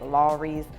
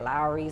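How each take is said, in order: First: The name does not sound like 'Lowry's'. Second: The name sounds like 'Lowry's'. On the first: This is how other people say it. "When people say it" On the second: This is how the speaker says it. "I say it Lawry's, like Mike Lowry's"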